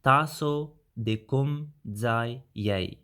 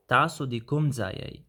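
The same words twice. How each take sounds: First: Slow and clear for learners; slow careful demo. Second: Said in the usual way. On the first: Shown as a demonstration. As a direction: say "Taso de kum zai yei" slowly, syllable by syllable. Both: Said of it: "Then you can say".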